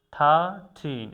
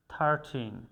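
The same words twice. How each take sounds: First: "থার্টিন" louder and slowed, r kept; slow pronunciation drill. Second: Said in the usual way. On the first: Shown as a demonstration. Teacher drilling "থার্টিন" loud and slow. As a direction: stretch out "থার্টিন". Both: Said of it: "আরটা যেটা এটা উজ্জ্ব থাকবে".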